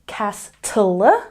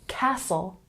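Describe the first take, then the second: First: A T sound is heard in the middle. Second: No T sound is heard in the middle. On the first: The speaker calls it wrong. "We're not saying castle, no, no, no" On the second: The speaker calls it right. "we're saying castle"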